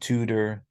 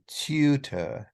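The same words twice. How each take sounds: First: No y sound follows the first t. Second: A y sound follows the first t. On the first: "I grew up in the U S saying tutor" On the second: "many kinds of English accents, they'll say tutor"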